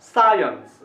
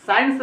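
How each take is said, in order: First: science as loud SAA-yuns, then falling; held first vowel. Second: science run together as "sains"; mistaken single syllable. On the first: Teacher modelling the correct word, held stress. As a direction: swell on सा, add यंस. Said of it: "इसको बोलना चाहिए". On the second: Teacher quoting what not to say, "sains". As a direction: squash science into one syllable. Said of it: "नहीं बोलना चाहिए". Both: Shown as a demonstration.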